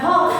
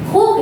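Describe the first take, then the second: First: The vowel is an 'aw' sound. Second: The vowel is an 'oo' sound. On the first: The speaker calls it wrong. "bukan Hawk" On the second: The speaker calls it right. "Jadi dibacanya Hook ya"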